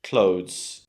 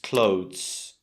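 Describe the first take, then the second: First: The word ends with only a soft z sound. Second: The word ends with only a soft z sound.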